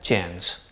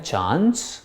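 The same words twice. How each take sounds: First: It is said in an American accent. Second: It is said in a British accent. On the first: "American चांस" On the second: "British वाले पढ़ते हैं चांस"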